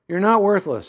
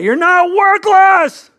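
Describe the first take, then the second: First: It is said at a normal, quiet volume. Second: It is screamed very loudly.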